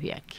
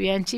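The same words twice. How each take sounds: First: The middle consonant sounds like 'k'. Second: The middle consonant sounds like 'ch'. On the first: This is how the name is properly said. The speaker calls it right. "Mi apellido correctamente pronunciado es Bianchi" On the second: This is how most people say the name. The speaker calls it wrong. "ya todo el mundo me dice Bianchi"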